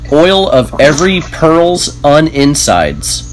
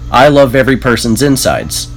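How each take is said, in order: First: The phrase is said at a normal, careful pace. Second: The phrase is said quickly, with sounds run together.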